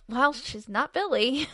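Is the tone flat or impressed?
impressed. It is said with an impressed, emphatic tone.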